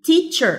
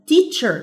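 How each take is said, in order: Both takes have the same delivery.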